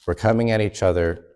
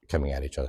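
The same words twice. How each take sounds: First: Said in the usual way. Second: Repeated softly and lower, tasting the phrase; a softer, wary echo; quiet. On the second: Shown as a demonstration. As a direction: drop it low like you dislike the words. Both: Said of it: "I don't even like the way that sounds".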